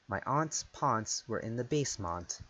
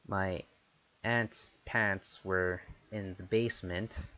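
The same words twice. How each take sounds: First: The A vowels are broad, British style. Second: The A vowels are flat, North American style.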